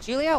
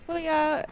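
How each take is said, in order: First: The name is pronounced the English way. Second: The name is pronounced the Spanish way.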